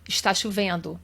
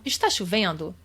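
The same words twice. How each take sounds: First: "Está chovendo" said as a statement, falling at the end; calm statement tone on "Está chovendo"; plain statement. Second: "Está chovendo?" with the pitch rising on the end as a question; question intonation. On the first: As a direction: say "Está chovendo" as a flat fact with a falling close. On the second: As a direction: turn "Está chovendo?" into a question by lifting the tune on "chovendo". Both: Shown as a demonstration. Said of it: "vai ser na entonação".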